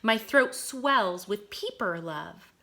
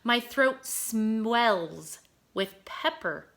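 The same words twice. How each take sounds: First: "peeper" said with a long ee, like a tiny frog; careful reread of "peeper love"; corrected reading. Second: "pepper" misread as the spice word pepper. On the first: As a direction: fix it to "peeper", with a clear long ee. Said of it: "I'm gonna read that again". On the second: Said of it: "peeper, excuse me". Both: Shown as a demonstration.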